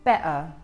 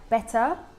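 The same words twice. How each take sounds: First: The middle T becomes a glottal catch. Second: The middle T is clearly pronounced.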